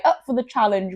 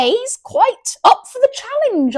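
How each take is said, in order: First: Said in the usual way. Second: High, loud posh voice; plummy posh English, pitched way up; posh accent. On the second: Pretend. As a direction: put on a hammed-up posh accent. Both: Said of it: "gone all posh here".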